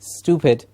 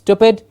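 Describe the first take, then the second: First: The vowel after 'st' is a long oo. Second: The vowel after 'st' is short. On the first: The speaker calls it right. "long oo sound" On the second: The speaker calls it wrong. "It's not stupid"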